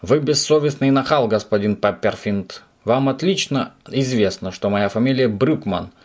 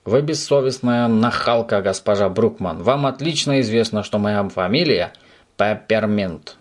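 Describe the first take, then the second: First: Emphatic, raised scolding; thundering indignation. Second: Raised, mock-indignant echo; shouted mimicking retort. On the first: Landlady thunders about her surname, outraged. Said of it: "снова загрохотала хозяйка". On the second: Subastik shouts landlady's words back, mock indignant. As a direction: throw the scolding back, stretching the name. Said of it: "крикнул в ответ Субастик". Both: A narrator's reading.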